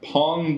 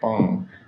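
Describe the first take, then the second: First: The name starts with a strong, puffed P. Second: The name starts with a soft B.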